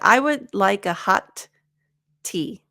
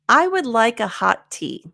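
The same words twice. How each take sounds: First: Both t sounds are said with a pause between. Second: The two t sounds blend into one, no pause. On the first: The speaker calls it wrong. "Instead of" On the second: The speaker calls it right. "we're just gonna eliminate one, and there's no pause"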